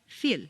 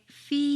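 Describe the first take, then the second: First: The vowel is short, like in fill. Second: The vowel is long and drawn into extra syllables. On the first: The speaker calls it wrong. "If you say just the letters that you see" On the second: The speaker calls it right. "You need to say"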